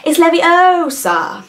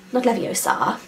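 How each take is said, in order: First: Leviosa said high, loud and slow, stressing the O; hammed-up correcting Leviosa; Hermione's Leviosa correction. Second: Not Leviosa, dropped much softer; throwaway mistaken Leviosa; wrong Leviosa. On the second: Retold or imitated.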